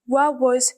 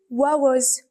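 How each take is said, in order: First: The words are run together in a fast, reduced form. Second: The same.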